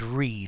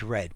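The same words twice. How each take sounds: First: The vowel is long, as in 'feed'. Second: The vowel is short, as in 'fed'. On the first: It is the present form of the verb. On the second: It is the past form of the verb.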